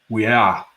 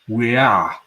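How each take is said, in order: Both takes have the same delivery.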